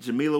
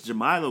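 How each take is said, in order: First: The first i in Jamila is short. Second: The first i in Jamila is long. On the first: The speaker calls it wrong. "I had been saying [name]" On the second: The speaker calls it right. "she says that her name has a long I"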